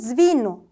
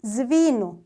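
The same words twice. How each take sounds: The two takes are said the same way.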